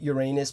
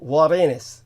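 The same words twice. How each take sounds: First: The first syllable does not sound like 'our'. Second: The first syllable sounds like 'our'. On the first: The speaker calls it wrong. "stop calling it Uranus because it sounds obscene" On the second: The speaker calls it right. "like our. Think of our"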